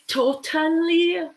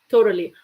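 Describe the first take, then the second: First: The middle T is a clear T sound. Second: The middle T sounds almost like an R. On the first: "you could say totally" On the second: "Like almost as a R sound"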